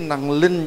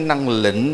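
First: The second syllable has a level tone. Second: The second syllable has a broken rising tone. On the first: The speaker calls it right. "năng linh chứ không phải năng lĩnh đâu" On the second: The speaker calls it wrong. "không phải năng lĩnh đâu"

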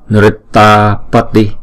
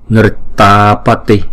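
The two takes are said the same way.

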